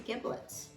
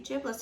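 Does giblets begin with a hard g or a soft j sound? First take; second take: hard g; soft j. First: The word begins with a hard g sound. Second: The word begins with a soft j sound. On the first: Someone else said it this way. "I heard somebody else say giblets. That just didn't sound right to me" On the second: This is how the speaker says it. "I say giblets"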